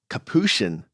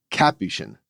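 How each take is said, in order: First: Capuchin as kuh-POO-shin, stress on the middle syllable; second-syllable stress. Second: Capuchin as CAP-yoo-shin, stress up front; first-syllable stress. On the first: Retold or imitated. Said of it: "y'all are pronouncing the word". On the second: Shown as a demonstration. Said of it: "emphasis on the first syllable".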